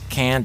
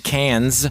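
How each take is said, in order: First: The word ends without an s sound. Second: The word ends with an s sound. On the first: The speaker calls it right. "you always drop that S" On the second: The speaker calls it wrong. "don't say cans"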